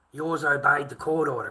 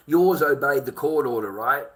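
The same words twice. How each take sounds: First: Angry. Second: Loud, accusing, hammering yours; angry confrontation. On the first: Confronting a viewer about custody. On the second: Father confronting a chatter over custody, loud accusation. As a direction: call him out hard. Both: Real, not acted.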